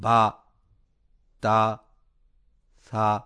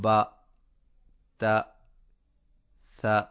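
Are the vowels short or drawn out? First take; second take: drawn out; short. First: The vowels are stretched out long. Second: The vowels are kept short. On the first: The speaker calls it wrong. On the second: The speaker calls it right.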